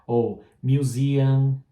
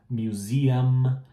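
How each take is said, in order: First: Museum drawn out with the m dropped, mjuziã; wrong way, slowly. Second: Museum ending with lips shut on m; right way, close on m. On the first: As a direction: show the Portuguese habit on museum. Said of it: "Como é em português". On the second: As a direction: say museum with a full final m. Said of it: "Tem que falar o M". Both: Shown as a demonstration.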